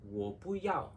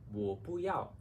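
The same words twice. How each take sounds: No difference in how they are said.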